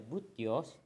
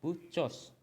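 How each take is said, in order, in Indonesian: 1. Konsonan di tengah adalah bunyi t. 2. Konsonan di tengah adalah bunyi ch. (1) "Itu enggak dibaca butios" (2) "tapi dibacanya buchos"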